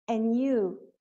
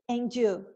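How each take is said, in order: First: Only an n sound comes before you. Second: A d sound links into you. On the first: This is the usual way. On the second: This is a regional variant. "com D"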